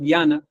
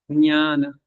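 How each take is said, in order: First: It begins with a hard g sound. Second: It begins with a nasal ny sound. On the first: The speaker calls it wrong. "digo guiana, pero ... guiana no es" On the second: The speaker calls it right. "hay una nasal ahí que es ñana"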